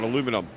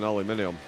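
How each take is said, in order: First: The word is pronounced the American way. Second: The word is pronounced the British way.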